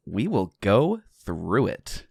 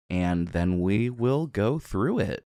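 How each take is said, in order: First: Slow, rising stress on will; flair on will. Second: Slow, drawn-out through it; dramatic flair. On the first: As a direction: drag out will go through it. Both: Shown as a demonstration. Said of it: "I got a little flair on that".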